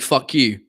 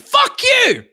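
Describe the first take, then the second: First: It is said at a normal, quiet volume. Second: It is shouted loudly.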